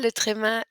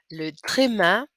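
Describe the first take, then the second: First: Said in the usual way. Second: Le tréma set apart and louder, the French r and é said clearly; French pronunciation. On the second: Shown as a demonstration. Teacher modelling the name Le tréma for students, clear and louder. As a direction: say Le tréma on its own as a model: luh tray-MAH. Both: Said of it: "that's how it's pronounced".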